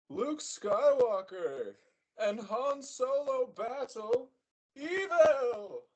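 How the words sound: It is said in a dramatic announcer voice. "T V voice?"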